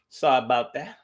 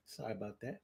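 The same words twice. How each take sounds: First: Said in the usual way. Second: Much softer echo of the apology; hushed repeat. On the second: Shown as a demonstration. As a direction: drop it almost to nothing.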